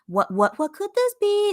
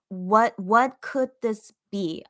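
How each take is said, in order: First: It is said in a cute, playful tone. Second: It is read in a plain, neutral tone.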